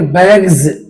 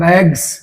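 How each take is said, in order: First: The word ends with a z sound. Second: The word ends with an s sound. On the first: The speaker calls it right. "एस का उच्चारण ज होता है" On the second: The speaker calls it wrong. "बहुत लोग पढ़ते हैं बैग्स। बैग्स नहीं है, गलत उच्चारण है।"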